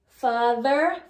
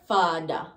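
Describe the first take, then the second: First: The middle sound is a voiced 'th'. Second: The middle sound is a 'd'.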